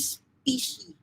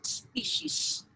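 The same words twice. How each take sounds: First: The word ends without a final s sound. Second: The word ends with a final s sound. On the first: The speaker calls it wrong. "Never say species" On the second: The speaker calls it right. "It is always with letter S"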